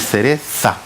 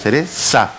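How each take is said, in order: First: The z is said like English 'th'. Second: The z is said like an 's'. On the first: "el español, cuando ve ese símbolo, ¿cómo manifiesta él esa Z? Así" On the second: "¿Cómo lo manifiesta el argentino o el canario?"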